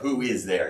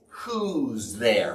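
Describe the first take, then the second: First: Who and is are said as two full words. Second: Who and is merge into one contracted word.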